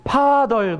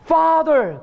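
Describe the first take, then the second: First: Father said with a P sound, like 파덜; Father as 파덜, higher; Korean-accented Father. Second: Father with a real F sound, higher and louder; teacher's Father, F clearly voiced; correct English Father. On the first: Retold or imitated. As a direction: imitate learners saying Father with a hard P. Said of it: "그랬더니 사람들이". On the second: Shown as a demonstration. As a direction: model Father cleanly with F. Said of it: "Father 가르쳤어요".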